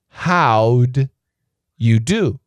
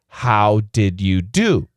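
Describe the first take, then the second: First: The word did shrinks to a d sound. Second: The word did is said in full.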